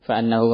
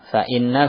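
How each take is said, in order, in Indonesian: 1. Vokal setelah 'fa' adalah bunyi 'a'. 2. Vokal setelah 'fa' adalah bunyi 'i'. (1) "dalam qiraah kita annahu" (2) "ini bisa dibaca fa'innahu"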